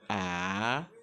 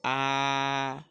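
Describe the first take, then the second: First: It is said with the second tone. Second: It is said with the first tone. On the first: "Le deuxième ton, c'est A" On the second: "Le premier temps se prononce de façon simple"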